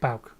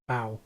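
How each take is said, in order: First: The name ends with a clear K sound. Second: The name ends without a K sound. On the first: The speaker calls it right. "So it's Bauk" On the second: The speaker calls it wrong. "K is silent"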